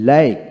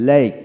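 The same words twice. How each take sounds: Both takes have the same delivery.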